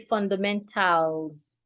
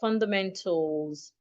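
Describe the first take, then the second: First: The vowel in the last syllable is fully pronounced. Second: The vowel in the last syllable is reduced. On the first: The speaker calls it wrong. "I didn't say fundamentals" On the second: The speaker calls it right. "Take note of how I pronounce the word fundamentals"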